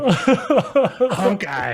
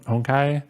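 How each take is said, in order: First: It starts with a heavily emphasized 'honk'. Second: It is said like a Japanese word. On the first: "very emphasized like honk" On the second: "I just kind of read it like a like a Japanese word"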